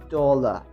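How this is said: It is said in a British accent. "British people say uh, tend to pronounce this word as dollar"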